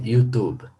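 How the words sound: It is pronounced the English way. The speaker calls it right. "en inglés se dice YouTube"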